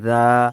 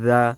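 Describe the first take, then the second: First: The syllable is stretched out and drawn long. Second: The syllable is said short and quick. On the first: The speaker calls it wrong. "এভাবে টেনে টেনে করবেন না" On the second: The speaker calls it right. "দ্রুত উচ্চারণ"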